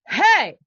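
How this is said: The shout is pushed out freely by breath. The speaker calls it right. "I'm using that here. I can do that. I don't even know how many times"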